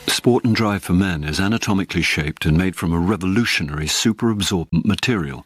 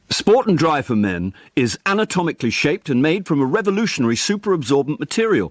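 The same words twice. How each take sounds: First: It is read at a calmer, plainer energy. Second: It is read faster with more energy.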